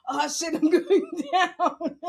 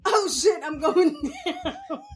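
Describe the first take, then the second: First: Slower repeat, laughing through it; laughing panic. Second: Mock panic, half laughing. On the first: Retold or imitated. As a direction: drag it out while laughing. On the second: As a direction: retell the fall laughing. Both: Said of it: "That's what I heard in my head".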